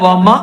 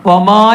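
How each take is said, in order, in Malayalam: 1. അവസാന സ്വരം ഹ്രസ്വമായി പറയുന്നു. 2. അവസാന സ്വരം നീട്ടി പറയുന്നു. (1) "അവിടെ അലിഫ് നീട്ടാനുണ്ട്, അത് പറയില്ല" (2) "വമ വമാ എന്നല്ല"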